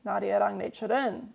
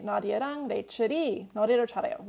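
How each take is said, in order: First: 나디아랑 레이첼은 read fast, landing on the topic ending 은; topic-particle version, quick Korean read. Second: 나디아랑 레이첼이 read fast, with the subject 레이첼이 in focus; subject-particle version, quick Korean read. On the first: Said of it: "if you use the topic particle here". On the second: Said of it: "you might use the subject particle". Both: Shown as a demonstration.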